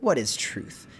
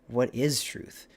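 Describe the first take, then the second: First: It is said in a mocking tone. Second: It is said in a thoughtful, pondering tone.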